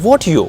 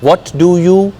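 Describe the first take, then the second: First: The three words are merged into one short form. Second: All three words are pronounced separately.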